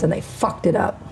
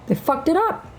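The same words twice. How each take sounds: First: Said in the usual way. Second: "They fucked it up" jumped much higher, rising on "up"; mock high repeat. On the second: Real, not acted. Mocking men for ruining the world, high rising repeat.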